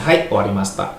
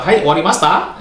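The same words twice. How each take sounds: First: "Hai, owarimashita" pitched low, as a statement; low answering intonation. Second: "Hai, owarimashita?" lifted higher like a question; "owarimashita" turned into a question; mistaken questioning intonation. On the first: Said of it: "kamu jawabnya rendah gitu". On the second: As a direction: answer "owarimashita" wrongly, pitch jumping up. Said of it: "kamu nanya dia lagi". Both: Shown as a demonstration.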